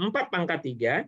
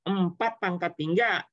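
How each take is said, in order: First: Said in the usual way. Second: Slow, spelled-out formula. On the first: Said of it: "teacher repeats the formula". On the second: Shown as a demonstration. Teacher to students, slowly spelling out the formula. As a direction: slowly lay out empat pangkat tiga, each word drawn out. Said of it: "teacher stresses the key formula".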